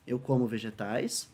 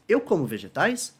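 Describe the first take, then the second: First: Said in the usual way. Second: "Eu como vegetais?" lifted as a yes-no question; question intonation. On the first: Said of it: "a gente só muda a entonação". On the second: Shown as a demonstration. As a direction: make "Eu como vegetais?" a question by tune alone. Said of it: "muda a entonação da frase pra expressar".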